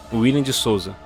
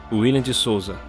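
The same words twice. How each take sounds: The two takes are said the same way.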